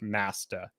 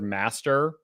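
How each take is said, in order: First: The word is said clipped, with its ending reduced. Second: The word is said fully and clearly. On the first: "said like Masta. Um like it's it's not fully enunciated" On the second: "just like the word master"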